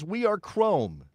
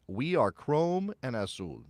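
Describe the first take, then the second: First: Slow, higher, mock-solemn declaration; hammed-up solemn proclamation; mock-grand slogan. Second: Said in the usual way. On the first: Shown as a demonstration. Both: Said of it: "you cannot say this with a straight face".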